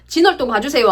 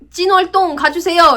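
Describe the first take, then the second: First: The first word starts with a plain, soft consonant. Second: The first word starts with a tense, forceful consonant. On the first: "안 하고" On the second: "이렇게 한다"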